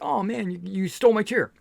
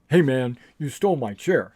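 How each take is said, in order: First: It sounds light and joking. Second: It sounds rude and confrontational.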